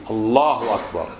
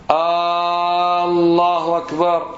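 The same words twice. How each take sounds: First: الله أكبر with a short first vowel, ending down; correct statement. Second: الله أكبر with a very long held "Aaaa" on the first vowel; wrong stretched opening. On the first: Teacher contrasting with the question, declarative takbir. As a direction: say "Allahu akbar" as a statement, no stretched A. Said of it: "جملة خبرية". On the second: Teacher mimicking people's mistake, stretched first vowel. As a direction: drag out the first A of الله, higher and chanted. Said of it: "هذا خطأ". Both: Shown as a demonstration.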